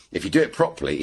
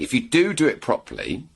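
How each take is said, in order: First: Said in the usual way. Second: Second "do" pitched high for emphasis; emphatic DO, raised pitch; stress on DO. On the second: Real, not acted. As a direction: lean hard on the added "do", voice lifting. Restates with an emphatic do.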